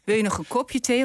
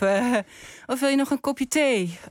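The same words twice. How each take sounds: First: The stress falls on the word kopje. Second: The stress falls on the word thee. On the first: The listener might prefer it in a glass. "Of heb je het liever in een glas?" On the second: The listener usually drinks coffee. "Je drinkt altijd koffie"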